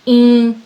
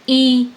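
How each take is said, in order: First: The vowel is spoken through mouth and nose. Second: The vowel is spoken through the mouth only. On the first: "नाक और मुख दोनों से बोलेंगे" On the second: "मुख से बोलेंगे तो"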